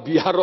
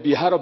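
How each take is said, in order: The two takes are said the same way.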